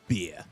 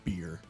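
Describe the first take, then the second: First: It is said in an Australian accent. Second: It is said in an American accent. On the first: The speaker calls it right. "it sounds better when Australians say it" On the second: The speaker calls it wrong. "Cause America"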